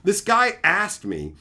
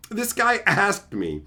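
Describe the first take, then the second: No difference in how they are said.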